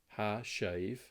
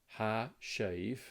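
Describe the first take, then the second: Both takes have the same delivery.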